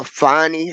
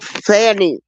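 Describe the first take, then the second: First: "Fonnie" said as FON-nee, o as in fond; name "Fonnie" with a rounded open o. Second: "Fannie" said as FAN-nee, a as in cat; name "Fannie" with a flat front a; Fannie with short a. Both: Shown as a demonstration. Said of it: "however they wanna say it".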